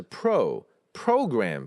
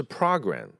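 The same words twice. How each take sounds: First: "program" with a long "oh" in pro; correct vowel demo. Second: "program" with an open "ah", PRAH-gram; wrong vowel demo. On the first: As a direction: slowly say "program" as PROH-gram. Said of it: "要注意，它是pro". (正确示范：program读pro) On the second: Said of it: "不是program". (错误示范：program读成pra) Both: Shown as a demonstration.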